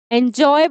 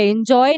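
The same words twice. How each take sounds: First: "एंजॉय" opening on a clear "en"; correct pronunciation. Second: "एंजॉय" begun with a short "in"; mispronunciation. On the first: Teacher answering her own question, "एंजॉय" said correctly en-joy. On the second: Teacher showing what not to say, "एंजॉय" mispronounced in-joy. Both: Shown as a demonstration. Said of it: "एंजॉय नहीं बोलते".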